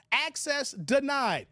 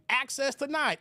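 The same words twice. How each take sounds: First: "Access denied" drawn out slowly, each word weighed; slow emphatic access denied. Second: Said in the usual way. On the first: Shown as a demonstration. Streamer slowly repeating a viewer's verdict on camera rules. Echoes chat line, drawn out.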